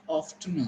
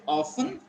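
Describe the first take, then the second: First: "often" as OFF-tun; sounded-T variant. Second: "often" as OFF-un; T-less take of "often"; silent-T variant. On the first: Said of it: "you can say often also". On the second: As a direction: say "often" without any T. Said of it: "You can pronounce it often". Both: Shown as a demonstration.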